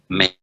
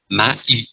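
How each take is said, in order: First: The a and i merge into one e sound. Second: The a and i are said as separate sounds. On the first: "phải đọc a với i cùng nhau và bằng tiếng Pháp a với i trở thành e" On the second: "phải cắt ở giữa a và i thì phải đọc"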